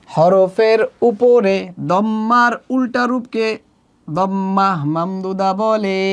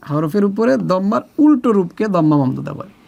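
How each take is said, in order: First: Measured classroom chant, drawn-out phrase endings; slow, sing-song teaching recital; slow recitation. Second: Said in the usual way. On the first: Shown as a demonstration. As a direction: recite the rule slowly for repetition. Definition chanted slowly for learners.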